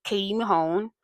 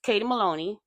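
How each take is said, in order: First: "Mahone" said as ma-HONE, the slip; wrong name. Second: "Maloney" said as ma-LO-ney; corrected name. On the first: Host slipping on a cast member's surname, saying "Mahone". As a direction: stumble into "Mahone" before catching it. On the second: Host correcting herself to say "Maloney" properly. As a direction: land cleanly on "Maloney". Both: Real, not acted. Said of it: "sorry, Katie Maloney".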